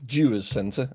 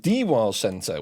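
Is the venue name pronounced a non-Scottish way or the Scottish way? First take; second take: Scottish; non-Scottish. First: The name is pronounced the local Scottish way. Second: The name is pronounced in a non-Scottish way. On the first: The speaker calls it right. "rather than pronouncing the venue as the Dewars Centre adequately" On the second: The speaker calls it wrong. "she uh, mistakenly pronounced it as the D WARS Centre"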